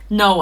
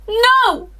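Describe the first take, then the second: First: It is said in a calmer, plainer way. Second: It is said with more dramatic emotion.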